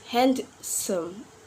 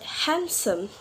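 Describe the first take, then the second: First: The D sound is pronounced. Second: The D sound is silent. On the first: The speaker calls it wrong. "we not pronounce handsome" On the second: The speaker calls it right. "but handsome"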